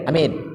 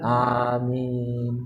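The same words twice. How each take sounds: First: The vowels are said short and clipped. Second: The vowels are held long and drawn out. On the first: The speaker calls it wrong. "kita kalau ngamin ke doa imam pendek kan" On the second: The speaker calls it right. "A panjang, min panjang, itu yang tepat"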